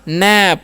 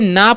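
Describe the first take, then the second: First: The vowel is the short 'a' of cat. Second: The vowel is a long 'ah' sound. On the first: The speaker calls it right. "पी से प हो गया नैप।" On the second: The speaker calls it wrong. "तो इसे नाप नहीं पढ़ेंगे"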